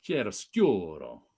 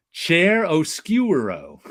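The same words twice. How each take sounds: First: "Chair oscuro" repeated lower and softer, slowly. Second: "Chair oscuro" said slow with a flat American chair; Americanized Chair oscuro. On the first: Repeating the mangled art term, low and soft. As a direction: mutter "Chair oscuro" again as a low aside. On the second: Teasing a friend by mangling the art term, slowly. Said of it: "you're looked at as snobbish". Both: Shown as a demonstration.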